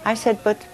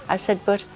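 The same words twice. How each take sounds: The two takes are said the same way.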